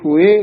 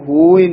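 First: The first vowel is a 'u' sound. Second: The first vowel is an 'o' sound. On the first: The speaker calls it right. "हुए दे लां लगी हुई है" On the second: The speaker calls it wrong. "इसनू होए नहीं कहना"

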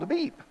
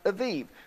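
First: The word is said with B sounds. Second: The word is said with V sounds. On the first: "It's called Abib" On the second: "Some people pronounce it Aviv"

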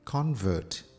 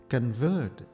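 First: The stress is on the first syllable. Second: The stress is on the second syllable. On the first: It is used as a noun. "is a noun" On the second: It is used as a verb. "if we say it like that, it's a verb"

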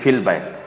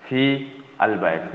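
First: The words are run together as fil bayt. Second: The words fi and al are said separately. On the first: "यानी फिल बैत" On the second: "फी अलबैत यानी फिल बैत"

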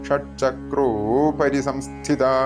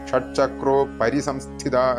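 First: The final vowel of chakro is lengthened. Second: The final vowel of chakro is short. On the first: The word upari is clearly heard. The speaker calls it right. "ഷഡ്ചക്രോ ഒന്ന് നീട്ടിക്കഴിഞ്ഞാൽ" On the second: The phrase loses its meaning. The speaker calls it wrong. "ഷഡ്ചക്രോ പരിസംസ്ഥിത എന്നൊക്കെ ചൊല്ലിപ്പോയി കഴിഞ്ഞാൽ ഒരു അർത്ഥം വരില്ല"

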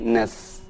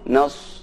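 First: The s is said thin with unrounded lips. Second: The s is said with rounded, pushed-out lips. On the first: The speaker calls it right. "tapi nas" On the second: The speaker calls it wrong. "jangan sampai dibaca monyong nas"

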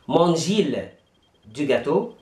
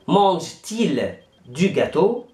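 First: The two vowels meet with no t sound. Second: A t sound links the verb and 'il'. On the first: The speaker calls it wrong. "هذه طريقة خاطئة" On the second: The speaker calls it right. "هقول في الأول مانجتيل دو جاتو"

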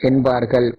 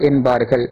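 No difference in how they are said.

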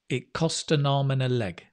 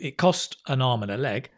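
First: The phrase is said as one unbroken chunk. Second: The phrase is split into two chunks. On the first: "Or you can do it as one sound" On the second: "You can put it into two"

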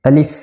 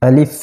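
The two takes are said the same way.

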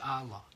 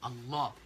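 First: The l sound is short and single. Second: The l sound is held long and doubled. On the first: The speaker calls it wrong. "Nicht Allah" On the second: The speaker calls it right. "Mit Shadda über dem Lam"

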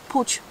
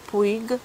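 First: The name is pronounced the Spanish way. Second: The name is pronounced as it is spelled.

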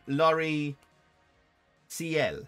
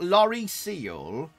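First: The ending is two syllables, like 'see-ell'. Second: The ending is one syllable, like 'seal'. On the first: The speaker calls it right. "but it's lorry C L" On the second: The speaker calls it wrong. "It's not lorry seal"

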